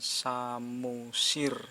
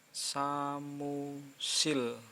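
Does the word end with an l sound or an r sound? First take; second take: r sound; l sound. First: The word ends with an r sound. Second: The word ends with an l sound. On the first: The speaker calls it wrong. "bukan samusir" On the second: The speaker calls it right. "Kalau mati jadi L, berarti ini dibaca samusil"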